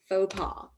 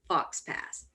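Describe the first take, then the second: First: The x and s sounds are silent. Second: The x and s sounds are pronounced. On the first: The speaker calls it right. "words are not pronounced the way that we think they're pronounced" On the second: The speaker calls it wrong. "you didn't pronounce it fox pass"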